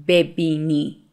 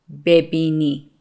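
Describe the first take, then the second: Both takes have the same delivery.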